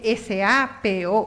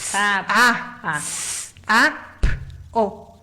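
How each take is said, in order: First: Each letter is said by its alphabet name. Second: Each letter is said as its bare sound. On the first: The speaker calls it wrong. "usted no dice S A P O" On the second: The speaker calls it right. "usted dice"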